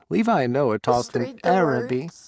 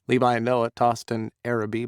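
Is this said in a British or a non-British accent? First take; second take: British; non-British. First: It is read in a put-on British accent. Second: It is read in the speaker's usual, non-British accent.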